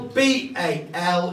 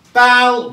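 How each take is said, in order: First: B A L spelled slowly letter by letter; spelling out letters. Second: Said in the usual way. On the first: Shown as a demonstration. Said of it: "it's an old Cornish word".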